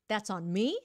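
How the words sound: It is said as a challenging question. The speaker doubts it is their fault. "Khi đó là đang đặt câu hỏi"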